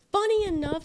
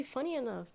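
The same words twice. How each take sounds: First: Higher and louder, playful emphasis; excited. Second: Said in the usual way. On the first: Real, not acted. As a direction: punch it out with glee. Second take, high and loud.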